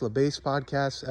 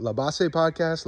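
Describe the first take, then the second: First: "Base" said the English way, one syllable like "bace"; "Base" rhymes with "face", English style; English pronunciation. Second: "Base" said the Spanish way, two syllables "BAH-seh"; "Base" as Spanish "bah-seh", then "Podcast"; Spanish pronunciation. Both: Shown as a demonstration. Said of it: "I don't know if it's La Base Podcast or La Base Podcast".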